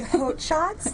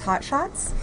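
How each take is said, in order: First: The first word has the vowel of 'oat'. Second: The first word has the vowel of 'hot'. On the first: The speaker calls it right. "it's really Haute Shots, like haute couture" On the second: The speaker calls it wrong. "absolutely everybody says Hot Shots"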